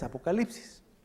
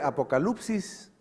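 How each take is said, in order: First: It is said with a modern Greek pronunciation. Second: It is said with an ancient Greek pronunciation. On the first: "la manera moderna" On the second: "la forma de pronunciarlo de manera antigua"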